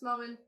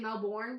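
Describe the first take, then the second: First: The name has an Australian-style pronunciation. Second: The name has an American-style pronunciation. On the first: The speaker calls it right. "It's how it's supposed to be pronounced" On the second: The speaker calls it wrong. "Because Americans say Melbourne"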